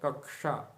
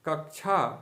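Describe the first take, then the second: First: The cluster has a clear k plus retroflex sh. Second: The cluster lacks a clear k plus retroflex sh. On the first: The speaker calls it right. "इसका सही उच्चारण है कक्षा" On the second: The speaker calls it wrong. "तो कक्षा अशुद्ध हो जाएगा"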